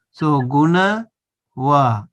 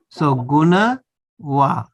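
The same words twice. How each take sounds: The two takes are said the same way.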